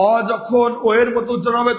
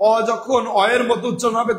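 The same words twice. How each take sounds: First: ও said as rounded "o"; closed o. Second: Both অ said as open "aw". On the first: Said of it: "তখন সংবৃত". (ও-এর সংবৃত উচ্চারণ) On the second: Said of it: "বিবৃত". (অ-এর বিবৃত উচ্চারণ) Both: Shown as a demonstration.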